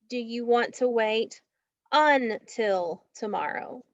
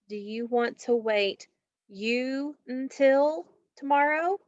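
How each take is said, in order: First: The first vowel sounds like 'uh'. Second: The first vowel sounds like 'you'. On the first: The speaker calls it right. "The correct way to break that word is until" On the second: The speaker calls it wrong. "Is it going to be you until or until?"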